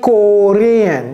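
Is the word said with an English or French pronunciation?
French. The word is said with a French pronunciation. The speaker calls it wrong. "j'ai pas dit Korean"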